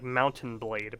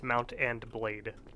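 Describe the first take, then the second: First: The first part runs together like 'mountain'. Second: The first part is split into 'mount and'. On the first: The speaker calls it wrong. "I pronounce it like Mountain Blade" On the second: The speaker calls it right. "but it's Mount and Blade"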